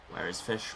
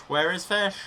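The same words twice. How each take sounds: First: Said in the usual way. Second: High loud call for fish. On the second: Pretend. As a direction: call out for the fish, pitched up and louder. Repeated calls, high loud take.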